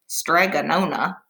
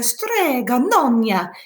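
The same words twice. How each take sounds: First: It is said flatly in a plain English accent. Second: It is said with an exaggerated Italian accent. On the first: The speaker calls it wrong. "that doesn't sound very fun" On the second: The speaker calls it right. "in your best Italian accent"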